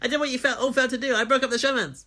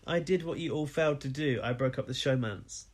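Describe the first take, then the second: First: It is said quickly, sped up. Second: It is said at a normal speed.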